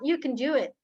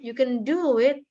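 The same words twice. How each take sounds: First: The words are said casually, in passing. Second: The words are stressed in an exaggerated way. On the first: The speaker calls it right. "Dia cuma sambil lalu aja" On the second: The speaker calls it wrong. "Tapi bukan dilebay-lebaykan, ditekankan juga kayak"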